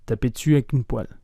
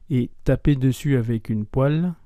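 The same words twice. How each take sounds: First: « taper dessus avec une poêle » dit vite, voyelles avalées; enchaînez « taper dessus avec une poêle » rapidement en perdant des voyelles; spoken fast. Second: Said in the usual way. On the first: Shown as a demonstration. (« taper dessus avec une poêle » très rapide et condensé) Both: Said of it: "prononcée un peu plus vite".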